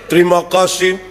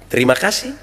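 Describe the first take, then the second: First: It is said flat, like a machine. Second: It is said with lively, varied intonation.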